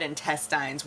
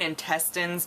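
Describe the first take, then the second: First: Intestines ending in "tines", like vines; the criticised pronunciation. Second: Intestines ending in a short "tinz"; corrective standard pronunciation. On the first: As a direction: quote intestines with a long "eye" at the end. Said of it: "which is incorrect". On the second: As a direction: say intestines with an unstressed final vowel. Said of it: "you said intestines, which is incorrect". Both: Acted.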